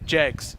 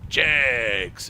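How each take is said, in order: First: It is said in a flat ordinary speaking voice. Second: It is said in a big hyped announcer voice. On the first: The speaker calls it wrong. "You can't say you can't say Jegs" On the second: The speaker calls it right. "That's how you got to say it like that"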